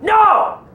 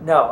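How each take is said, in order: First: It is yelled loudly. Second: It is said quietly and weakly.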